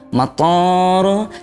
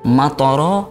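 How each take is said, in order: First: The vowel after the t is drawn out long. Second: The vowel after the t is short. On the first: It means an airport. The speaker calls it wrong. "menambah panjang di huruf toknya" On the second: It means a rain of stones. The speaker calls it right. "dengan tok pendek tanpa alif"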